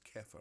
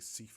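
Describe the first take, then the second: First: The name begins with a hard K sound. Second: The name begins with a soft S sound. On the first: The speaker calls it right. "I'm told it's Kefa ... She's got the hard C" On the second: The speaker calls it wrong. "I always say it wrong. I always just say Sifa"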